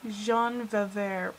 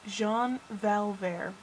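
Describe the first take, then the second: First: First L dropped from Valvert, like "Va-vert"; drawn-out Valvert without its L; corrected slip. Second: Valvert with a clear L, "val-VAIR"; deliberate, drawn-out Valvert; corrected ship name. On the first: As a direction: say Valvert as "vuh-VAIR". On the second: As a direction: say Valvert slowly, sounding the first syllable "val". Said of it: "That's what it is". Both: Real, not acted.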